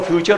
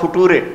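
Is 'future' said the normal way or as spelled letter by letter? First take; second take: normal; spelled. First: It is said the normal way, 'few-cher'. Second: It is read as spelled, 'foo-too-re'. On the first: "लिखो फ्यूचर" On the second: "पढ़ो फुटूरे"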